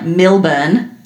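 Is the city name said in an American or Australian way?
Australian. The name is said in an Australian way.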